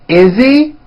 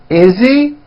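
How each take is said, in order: No difference in how they are said.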